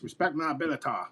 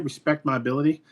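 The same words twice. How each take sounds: First: It is said in a Cartman impression. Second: It is said in his normal voice.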